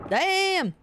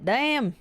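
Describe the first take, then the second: First: High yelped Damn!; a sudden pained Damn! jumping up high. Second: Startled curse. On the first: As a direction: yelp it higher as the pain hits. Bitten, second sharper cry. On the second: Bitten by a fish. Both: Real, not acted.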